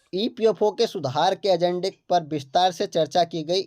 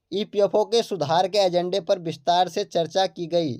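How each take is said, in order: Both takes have the same delivery.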